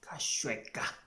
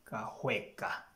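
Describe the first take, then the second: First: The middle consonant is a 'sh' sound. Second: The middle consonant is an 'h' sound. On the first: The speaker calls it wrong. "Some people will try Kashweka" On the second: The speaker calls it right. "it's Kahweka"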